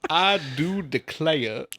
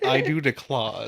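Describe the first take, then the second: First: "declare" drawn out as "de-clay-uh"; demonstrated drawl. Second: "declare" ending in an open "ah", like "de-clah"; mimicked mispronunciation. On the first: Shown as a demonstration. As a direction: slowly stretch "declare" into two syllables, "clay-uh". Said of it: "I don't know where to put my draw". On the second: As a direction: imitate a botched accent, "declare" as "de-clar". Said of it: "is what you said".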